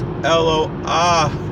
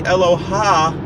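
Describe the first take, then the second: First: The 'a' vowel comes before the final h. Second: The 'a' vowel comes after the final h. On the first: The speaker calls it right. "It's Eloah" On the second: The speaker calls it wrong. "You don't say Eloha Yaakov"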